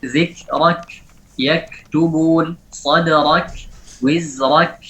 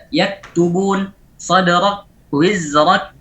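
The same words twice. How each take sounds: First: "Zikrak", "sadrak", "wizrak" with a small puff after k; slight hams. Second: "Yaktubun", "sadrak", "wizrak" with the k stopped, no air; no hams. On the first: Teacher models the correct reading, lightly breathed k. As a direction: release a little air on the k in "yaktubun", "wizrak". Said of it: "Berikan hamasnya sedikit". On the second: Teacher says this is not allowed, unreleased k. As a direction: hold back all breath after k in "sadrak", "wizrak". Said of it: "tidak ada hamasnya". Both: Shown as a demonstration.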